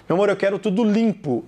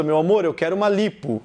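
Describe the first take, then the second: First: LIMPO with a nasalised I; sample sentence, nasal vowel in LIMPO. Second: LIPO with a pure oral I; sample sentence, no nasal vowel in LIPO. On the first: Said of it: "esse I com som nasal". ("limpo" com I nasal) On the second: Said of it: "se você tira a nasalização". ("lipo" com I oral) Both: Shown as a demonstration.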